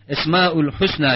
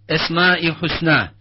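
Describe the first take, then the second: First: The two words are joined with 'ül'. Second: The two words are joined with a short 'i'. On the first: The speaker calls it wrong. "şeklindeki tabir yanlış, böyle söylemeyeceğiz" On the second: The speaker calls it right. "bu şekilde söyleyeceğiz"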